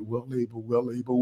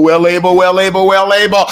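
First: Hushed, soft declaration; quiet voice. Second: Louder, rising proclamation of faith; loud declaration. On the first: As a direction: say it softly to yourself, very low. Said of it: "You may have to say it in your quiet voice". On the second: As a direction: belt it out boldly. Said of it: "just say it in your spirit". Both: Shown as a demonstration.

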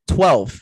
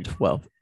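First: Twelve repeated with a much louder, falling punch; stress on Twelve. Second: Said in the usual way. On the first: Shown as a demonstration. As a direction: hit the word Twelve hard, then drop it.

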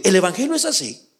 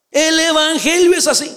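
First: Said in the usual way. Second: Evangelio pushed higher in a firm preaching fall; stress on evangelio. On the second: Shown as a demonstration. Pastor repeating to his congregation, stress on evangelio. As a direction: hit evangelio hard the second time.

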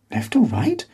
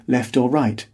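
First: High rising puzzled repeat; puzzled question. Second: Said in the usual way. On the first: A narrator's reading. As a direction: echo it back, baffled.

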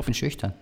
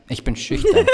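First: Said in the usual way. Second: High giggling coy voice; giggly late night call. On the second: Pretend. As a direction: squeal it shyly through laughter. Mock coy lover on phone.

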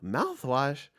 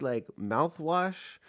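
First: Disbelieving rising "Mouthwash?"; incredulous echo. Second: Slow, lilting question about mouthwash; drawn-out question. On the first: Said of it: "And I'm like". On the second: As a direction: stretch it out, genuinely asking. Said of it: "she's like". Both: Retold or imitated.

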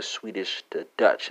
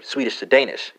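First: Said in the usual way. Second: "Danish" lifted higher as the fix; correcting stress. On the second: Shown as a demonstration. Teacher fixing a slip, stressing "Danish". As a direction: correct yourself by hitting "Danish". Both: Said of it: "I'm sorry".

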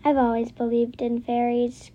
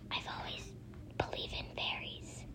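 First: Said in the usual way. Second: A breathy, voiceless hush; whispered line to a friend. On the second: A narrator's reading. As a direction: whisper it back like a secret. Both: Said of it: "Christy whispered back".

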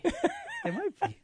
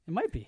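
First: Slow, high, laughing; mock high voice. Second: Said in the usual way. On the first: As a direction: squeak it out slowly while laughing. Repeats line, second take mocked.

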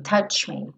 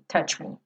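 First: "touch me" said softer, tch straight into me. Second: "touch me" whispered, tch straight into me; whispered drill. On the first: Teacher drills the linking quietly. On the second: Teacher whispers the drill for students. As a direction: breathe "touch me" without voice. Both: Shown as a demonstration. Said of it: "você já vai daqui tch, pro M".

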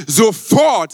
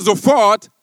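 First: Sofort called out loud; preacher proclaiming Sofort to the crowd, loud; loud proclamation. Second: Slow repeat. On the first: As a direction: announce the word Sofort with force. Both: Shown as a demonstration. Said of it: "sag mal sofort".

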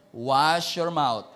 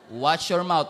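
First: Slow menacing warning. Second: Stern warning. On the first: Repeated slower warning. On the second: Believer warns pastor. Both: Retold or imitated.

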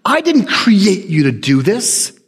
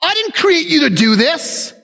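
First: Said in the usual way. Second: "I didn't create you" raised high and scolding; scolding rebuke. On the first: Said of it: "And I love that moment". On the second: Retold or imitated. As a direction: chide it like a child. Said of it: "like he was rebuking this child".

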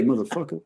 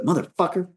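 First: "motherfucker" softer, final R dropped to an "uh"; with funky sting. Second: "motherfucker" higher, with both -er endings sounded; uptight, square. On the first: Shown as a demonstration. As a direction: give "motherfucker" some funk, loose ending rising. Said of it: "you gotta say". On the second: Retold or imitated. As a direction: say "motherfucker" like a guy in too-tight pants. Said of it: "sounds like a guy that, you know, his pants are too tight".

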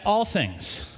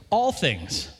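First: "all things" slowed, "all" leaned on with a falling tune; slow stress on all. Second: Said in the usual way. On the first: Shown as a demonstration. Pastor to church, pressing the point: slow, weighty "all". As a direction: drag out "all" to make the point. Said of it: "Like when our house burned down?". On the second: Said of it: "You ever unpack that verse?".

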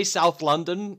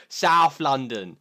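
First: Said in the usual way. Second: "South London" very slow, OU stretched long; drawn-out South London accent. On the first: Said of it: "in my North London-y accent". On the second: Shown as a demonstration. Showing how locals say "South London", OU drawn out. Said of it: "you really extend out the, uh, the O U".

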